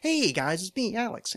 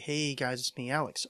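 First: It is said in a weird put-on voice. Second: It is said in a normal speaking voice.

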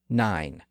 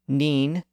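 First: The vowel is the modern eye sound. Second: The vowel is a high front ee sound. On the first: This is the present-day pronunciation. "we would say nine" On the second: This is the older medieval pronunciation. "Chaucer would have said neen"

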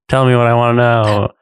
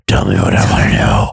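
First: It is said in a normal speaking voice. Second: It is said in a gravelly Batman voice.

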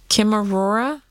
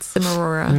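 First: The word begins with a hard K sound. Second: The word begins with a soft S sound. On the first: "He pronounces it Chimarora?" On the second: "I read it like cinnamon"

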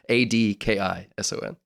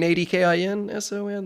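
First: The name has no N sound in the middle. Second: The name has an N sound in the middle. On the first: The speaker calls it right. "there's no N in the middle of my last name" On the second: The speaker calls it wrong. "There's no N? ... You mean Adkison? That's not it"

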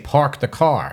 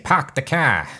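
First: It is said in the speaker's own accent. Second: It is said in an exaggerated Boston accent.

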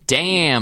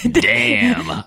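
First: The word is said in a plain voice. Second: The word is said in a husky voice. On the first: The speaker calls it wrong. "That's not a husky voice" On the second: The speaker calls it right. "There you go"

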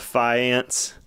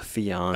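First: The word is said with a plain English pronunciation. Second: The word is said with a fancy French pronunciation.

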